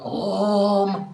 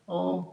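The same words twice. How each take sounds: First: The sound is heavy and forceful. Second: The sound is soft and light. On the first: The speaker calls it wrong. "not like that" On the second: The speaker calls it right. "oh very light"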